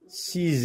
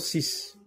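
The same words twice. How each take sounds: First: The final consonant is a Z sound. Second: The final consonant is an S sound. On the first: "Le X se prononce ici Z" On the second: "on dit normalement six"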